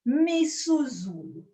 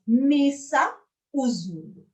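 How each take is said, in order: First: The 'a' is dropped, run together as one word. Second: Both vowels are said, as two separate words.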